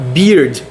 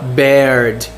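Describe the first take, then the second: First: The vowel sounds like the one in 'beer'. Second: The vowel sounds like the one in 'bear'. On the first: The speaker calls it right. "se fala beard" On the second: The speaker calls it wrong. "não se fala beard"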